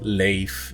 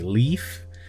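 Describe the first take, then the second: First: The name is said the Swedish way. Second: The name is said the English way, like leaf.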